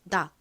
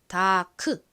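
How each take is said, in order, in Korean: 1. 마지막 k는 약하게, 닫힌 받침처럼 소리 납니다. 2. 마지막 k는 완전히 터뜨려 소리 냅니다. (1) "C의 키읔 소리가 약하게 소리가 납니다" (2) "다크 이렇게 소리가 나는 것이 아니라"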